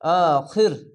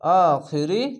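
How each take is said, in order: First: The word ends on the r without a vowel. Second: The word ends with a vowel after the r. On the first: The reading stops at this word. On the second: The reading continues without stopping.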